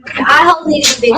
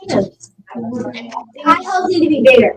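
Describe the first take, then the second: First: Quick impatient repeat; fast repeat. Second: Slow, careful statement; slow and drawn out. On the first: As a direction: rattle it off fast. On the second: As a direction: draw out each word slowly. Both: Real, not acted.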